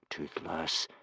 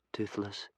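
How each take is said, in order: First: Soft, warning whisper. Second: Said in the usual way. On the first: Acted. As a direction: hush him with a warning. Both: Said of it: "whispered Hiccup warningly".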